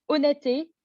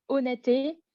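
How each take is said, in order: Both takes have the same delivery.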